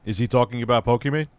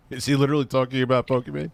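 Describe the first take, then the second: First: Said in the usual way. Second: Fast, disbelieving repeat with weight on he; incredulous. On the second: Real, not acted. Streamer reacting to the guest's tangent, incredulous. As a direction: say it again, now you can't believe it.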